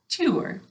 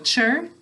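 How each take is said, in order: First: The syllable sounds like 'tour'. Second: The syllable sounds like 'cher'. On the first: This is said to help with spelling. "We say tour to spell it" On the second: This is how it is said in normal speech. "we say chur for the syllable when we're talking"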